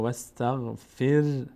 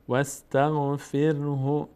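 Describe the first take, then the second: First: The final vowel is dropped, ending on consonant. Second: The word ends with a short vowel after h. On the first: The reader pauses here. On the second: The reading continues past this point.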